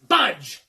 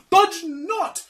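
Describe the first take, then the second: First: One forceful falling command, like a tempter; commanding fiend. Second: High, loud counter-order; protesting conscience. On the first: Fiend tells servant to go, forceful order. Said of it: "says the fiend". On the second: Conscience contradicts the fiend, high protesting. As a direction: sing out a high-pitched objection. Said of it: "says the conscience". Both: Acted.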